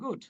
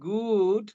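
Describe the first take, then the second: First: It is said plainly, as simple approval. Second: It is said in a hesitant, qualified tone. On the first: It is simply good. "Simply বললাম good." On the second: It is good but needs improvement. "তার মানে ভালো, but improvement is needed here."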